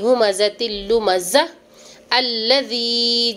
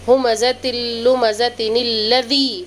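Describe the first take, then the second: First: It stops before the last word, dropping the n. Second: It runs straight on, linking with an n sound. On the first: "अगर रुकेंगी तो" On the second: "अगर मिलाएंगी तो"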